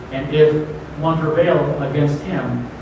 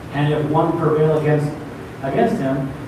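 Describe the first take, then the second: Both takes have the same delivery.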